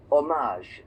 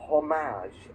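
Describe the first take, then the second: First: Hommage said the French way, silent H, stress on the end. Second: Said in the usual way. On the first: Shown as a demonstration. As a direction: drop the H in hommage, French style. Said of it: "but in French is hommage". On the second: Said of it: "In English, we say".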